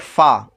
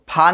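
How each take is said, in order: First: The first sound is made with teeth on lip. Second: The first sound is made with both lips. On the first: The speaker calls it right. "बल्कि फा, ऊपर के दांतों का किनारा और नीचे के होंठ से मिलकर" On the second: The speaker calls it wrong. "फा नहीं बोलना है"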